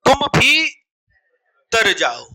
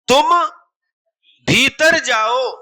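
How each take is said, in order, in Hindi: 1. 'Bhi' और 'tar' अलग-अलग बोले जाते हैं। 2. 'Bhitar' एक बिना टूटे शब्द की तरह बोला जाता है।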